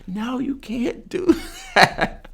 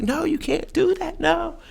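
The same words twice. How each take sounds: First: Slow, high retold protest broken by a laugh; laughing high yell. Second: Shrill-pitched retold yell, much higher. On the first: To the man slapping the injured guy, laughing high protest. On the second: To the man bouncing the unconscious guy, a high yell. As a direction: yell it up high to stop him. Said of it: "I'm yelling".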